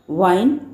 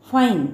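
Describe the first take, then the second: First: वाइन with a V, lips to teeth, rising; teacher demo of वाइन. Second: फाइन with a crisp F, falling; teacher demo of फाइन. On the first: Teacher reading the word list aloud, वाइन with a buzzing V. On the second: Teacher reading the word list aloud, फाइन with a clean F. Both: Shown as a demonstration. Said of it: "read each pair of words twice with correct pronunciation".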